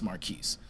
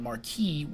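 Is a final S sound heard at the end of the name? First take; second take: yes; no. First: The name ends with an audible S sound. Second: The name ends without an S sound. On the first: This is how the speaker's own name is said. "I put the S on the end. We say it. So it's pronounced Marquis" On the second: This is the French way of saying the name. "Marquis would be the way you pronounce it if we were over there in France"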